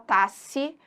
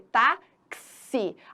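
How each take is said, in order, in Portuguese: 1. Um som de s vem antes da última vogal. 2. Um som de ks vem antes da última vogal. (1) "ninguém fala tasse" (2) "a gente fala o quê? Táxi. Aquele X... corresponde a dois fonemas"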